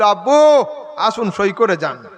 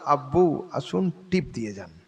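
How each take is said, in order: First: It is called out loudly. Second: It is said quietly.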